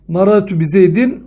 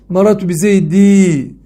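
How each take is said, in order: First: The final vowel is short and ends in n. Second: The final vowel is drawn out like a long i.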